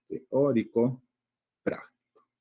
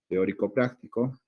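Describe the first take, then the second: First: "teórico" and "práctico" set apart by a pause; each word of "teórico práctico" given its own stress; separated words. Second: Said in the usual way. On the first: Shown as a demonstration. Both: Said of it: "sus sílabas tónicas y sus sílabas átonas".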